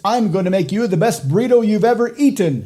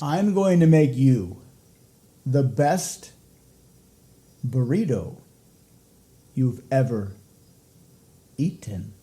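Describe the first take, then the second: First: The sentence runs straight through without pauses. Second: The sentence is broken up by deliberate pauses. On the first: The speaker calls it wrong. "That sounds okay" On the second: The speaker calls it right. "you can make it much better with some strategically placed pauses"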